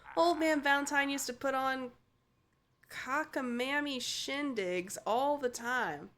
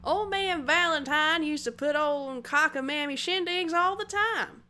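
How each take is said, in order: First: It is read in the speaker's ordinary voice. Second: It is read in a put-on accent.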